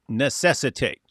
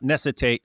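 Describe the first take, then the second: First: The word is said with the extra syllable included. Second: The word is said with a syllable missing. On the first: The speaker calls it right. "putting the extra syllable in there" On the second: The speaker calls it wrong. "It's not necessitate"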